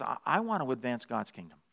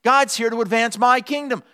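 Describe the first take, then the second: First: Low, soft, humble dog; quiet voice of a dog serving its master; lowered, reverent hush; devoted dog. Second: Lightly voiced cat, pitched up and assured; higher, self-important proclamation; a hint of entitled cat; self-centred cat. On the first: Acted. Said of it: "A dog says". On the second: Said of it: "A cat says".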